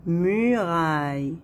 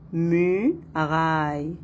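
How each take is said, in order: First: Said in the usual way. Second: "Muraille" in two beats, mu, pause, raille; split into syllables. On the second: Shown as a demonstration. Teacher counting two syllables for pupils, split into syllables. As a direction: lift the first syllable of "Muraille", pause, then finish. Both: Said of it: "Deux syllabes".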